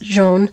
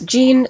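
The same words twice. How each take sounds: First: The name is pronounced the French way. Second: The name is pronounced the English way. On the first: The speaker calls it right. "It's French. It's Jean" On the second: The speaker calls it wrong. "I see a lot of people say this Jean. It's not Jean"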